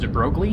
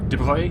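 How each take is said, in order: First: The name is said in an English-style way. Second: The name is said in a French-style way. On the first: The speaker calls it wrong. "I always thought his name was pronounced" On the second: The speaker calls it right. "is my best guess at how it would probably be pronounced"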